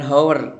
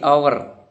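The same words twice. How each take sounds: First: The word starts with a clear h sound. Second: The word starts with a vowel, no h sound. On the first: The speaker calls it wrong. "bukan hour" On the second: The speaker calls it right. "hanya nggak nampak"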